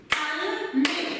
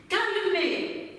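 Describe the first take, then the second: First: "Calmer" in two separate beats, cal - mer; split into syllables. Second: Said in the usual way. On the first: Shown as a demonstration. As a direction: clap out "Calmer" with a pause between syllables. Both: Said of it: "je vais segmenter et vous allez le faire".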